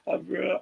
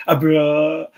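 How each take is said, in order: First: A bra said higher but softer in a mock South African accent. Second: A bra said higher and louder in a mock South African accent. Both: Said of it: "the South African accent".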